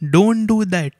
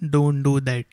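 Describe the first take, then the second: First: It is exclaimed forcefully, sounding angry. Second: It is said in a plain, calm way. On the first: The dog must stop immediately. "I said, ... Because maybe I am angry ... That's why I exclaimed" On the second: It is a simple statement. "I did not say it in a simple way. I did not say"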